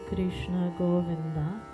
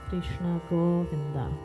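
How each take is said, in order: The two takes are said the same way.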